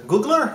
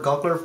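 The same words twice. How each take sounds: First: Googler with an "oo", GOO-gler; first vowel of Googler as a long "oo"; first pronunciation option. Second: Googler said as GOG-ler; alternative pronunciation. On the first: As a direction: say Googler to rhyme with bugler. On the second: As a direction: open "ah" in the first syllable of Googler. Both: Shown as a demonstration. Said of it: "how do you pronounce that?".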